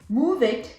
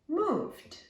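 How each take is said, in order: First: The ending is an extra syllable, id. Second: The ending is a voiced d sound. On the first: The speaker calls it wrong. "it's not an it. I don't say move it" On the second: The speaker calls it right. "I say moved"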